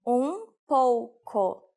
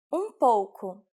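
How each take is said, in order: First: "Um pouco" broken into slow, separate syllables; slow teaching repetition. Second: Said in the usual way. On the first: Shown as a demonstration. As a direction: say "Um pouco" very slowly for learners. Teacher repeats phrase slowly. (drawn-out pronunciation model)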